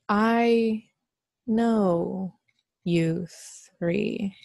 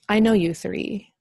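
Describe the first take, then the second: First: It is said slowly with pauses between words. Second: It is said smoothly without pauses between words.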